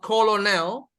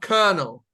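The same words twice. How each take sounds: First: The first syllable sounds like 'call'. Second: The first syllable sounds like 'ker'. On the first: The speaker calls it wrong. "not colonel" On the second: The speaker calls it right. "but colonel"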